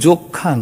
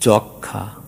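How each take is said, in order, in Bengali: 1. প্রথম স্বরধ্বনিটি বদ্ধ 'o' ধ্বনি। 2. প্রথম স্বরধ্বনিটি বিবৃত 'aw' ধ্বনি। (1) "এটা কিন্তু যক্ষা নয়" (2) "ম ফলাযুক্ত থাকলে তার আগের অ কোথাও কোথাও অকারান্ত উচ্চারিত হয়"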